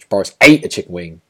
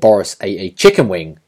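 First: The stress falls on the word ate. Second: The stress falls on the words chicken wing. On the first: It is in question what he actually did with the chicken wing. "you know you're kind of overemphasizing that ate" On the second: It is in question whether he ate something different. "as if to say it could have been something different"

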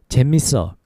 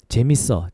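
The two takes are said the same way.

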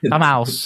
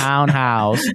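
First: The first part ends in an m sound, 'tom'. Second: The first part ends in an n sound, 'town'. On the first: The speaker calls it wrong. "I used to say for the longest time, Tom House" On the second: The speaker calls it right. "Don't say townhouse"

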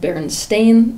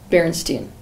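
First: The last syllable sounds like 'stain'. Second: The last syllable sounds like 'stine'. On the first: "pronounce the word Berenstain" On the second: "as Berenstein"

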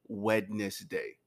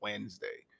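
First: Every written syllable of the word is pronounced. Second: The word is said with syllables dropped. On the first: "pronounce it the way that it's actually spelled" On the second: "You say Wednesday"

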